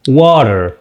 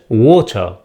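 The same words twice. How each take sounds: First: It is said with an American accent. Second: It is said with a British accent.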